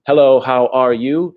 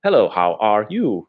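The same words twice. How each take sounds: First: HELLO, HOW ARE YOU higher and louder, rising at the end; just-the-words version. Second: HELLO, HOW ARE YOU with exaggerated pitch swoops, falling at the end; perfect-pitch demo. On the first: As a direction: ask HELLO, HOW ARE YOU brightly in English intonation. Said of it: "it's not just remembering". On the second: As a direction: give each word of HELLO, HOW ARE YOU its own tone. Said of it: "You must do this perfect pitch". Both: Shown as a demonstration.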